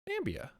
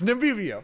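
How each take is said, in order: First: The name is said with three syllables. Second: The name is said with four syllables. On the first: The speaker calls it wrong. "I'm pronouncing this really wrong" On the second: The speaker calls it right. "It's Namibia"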